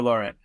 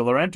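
First: Laurent said "LOR-unt"; full "LOR" opening Laurent, lighter ending; first-syllable variant. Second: Laurent said "luh-RENT"; short, weak first syllable in Laurent; second-syllable stress. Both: Shown as a demonstration. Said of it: "Or is it Laurent or Laurent?".

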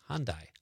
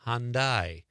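First: Said in the usual way. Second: Hyundai drawn out on both syllables; careful pronunciation. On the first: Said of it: "You have to think about it". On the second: Shown as a demonstration. Host showing the name is hard, Hyundai said slowly. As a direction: stretch Hyundai as HAHN-dyyye. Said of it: "You have to think about it before you say it".

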